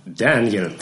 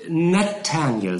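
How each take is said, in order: First: Daniel said flatly and briskly as a mishearing; misheard name. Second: Nathaniel drawn out slowly, every syllable clear; careful correction. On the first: Counsel Skimpin deliberately mishears the name, brisk and sure. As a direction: toss out Daniel as if certain. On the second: Winkle corrects the lawyer's Daniel, slow and careful. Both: A narrator's reading.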